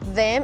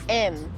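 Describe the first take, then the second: First: The word is said in full with its first sound. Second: The word is reduced to a short 'em' sound. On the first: The speaker calls it wrong. "It's not like they say them" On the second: The speaker calls it right. "it's like M"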